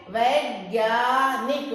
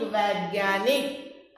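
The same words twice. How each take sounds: First: वैज्ञानिक drawn out slowly, with a rise at the end; slow demo word. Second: वैज्ञानिक repeated slowly and lower. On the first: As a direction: lead the class through वैज्ञानिक slowly. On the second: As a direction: echo वैज्ञानिक lower for them to copy. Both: Shown as a demonstration. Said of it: "तो वै".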